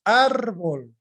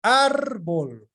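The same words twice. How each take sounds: First: Árbol with a strong first syllable; stressed demo. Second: Árbol repeated, the first syllable stressed again. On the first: Teacher showing the class where Árbol is stressed. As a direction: lean on the start of Árbol. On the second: Teacher repeating árbol for the class, stress on the first syllable. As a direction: hit the start of árbol once more. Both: Shown as a demonstration. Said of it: "sigo anotando alguna otra más".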